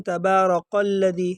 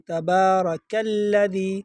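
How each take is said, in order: First: تبارک الذی with a heavy back q, "qol-ladhee"; qaf mistake. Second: تبارک الذی slowly chanted with a thin front k; light kaf. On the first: Teacher imitating a common error, heavy q in تبارک. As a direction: turn the k of تبارک into a thick qaf. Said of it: "قاف پڑھتے ہیں". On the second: Teacher correcting the error, slow light kaf in تبارک. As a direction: keep the k of تبارک light, "kal-ladhee". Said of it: "اس کو باریک پڑھیں گے". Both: Shown as a demonstration.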